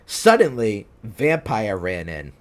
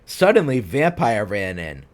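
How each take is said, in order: Both takes have the same delivery.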